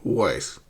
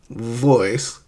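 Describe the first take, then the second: First: The word begins with a w sound. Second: The word begins with a v sound. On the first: The speaker calls it wrong. "they say voice" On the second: The speaker calls it right. "instead of saying voice"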